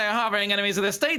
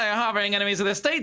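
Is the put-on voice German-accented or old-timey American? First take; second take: old-timey American; old-timey American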